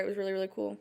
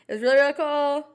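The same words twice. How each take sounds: First: Said in the usual way. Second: Excited. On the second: Real, not acted. Repeats line with more energy.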